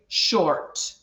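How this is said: The R sound after the vowel is pronounced. "in a Scottish accent, we usually pronounce the R sound"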